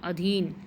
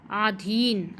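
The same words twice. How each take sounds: First: अधीन with a short a at the start, a-dheen; correct form. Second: आधीन with a long aa at the start; wrong form आधीन with a long first vowel. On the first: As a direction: say अधीन as the right word. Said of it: "अधीन होता है". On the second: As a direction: say आधीन, aa-dheen, as the mistake. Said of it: "आधीन नहीं होता". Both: Shown as a demonstration.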